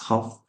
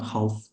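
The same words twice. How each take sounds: First: The L sound is silent in the word. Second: The L sound is pronounced in the word. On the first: The speaker calls it right. "There is a silent letter" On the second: The speaker calls it wrong. "It's not half"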